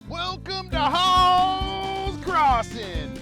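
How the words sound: It is said in a pushy car-salesman voice.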